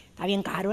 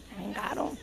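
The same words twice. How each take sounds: First: Softer aside. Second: Breathy repeated aside, much softer; near whisper. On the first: Aside about the expensive Nintendo. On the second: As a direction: drop it to a confiding murmur. (repite casi susurrando) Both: Real, not acted.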